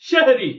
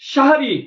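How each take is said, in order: First: The first vowel is an 'e' sound. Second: The first vowel is an open 'a' sound. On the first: The speaker calls it wrong. "আর আমরা বলছি সেহরি" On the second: The speaker calls it right. "আল্লাহ নবী বললেন সাহারি"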